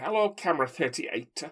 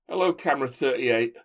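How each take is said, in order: First: It is spoken in a Scouse accent without glottal stops. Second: It is spoken with glottal stops, not Scouse. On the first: "That's such a terrible Scouse accent" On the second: "whereas the Doctor in prison would say"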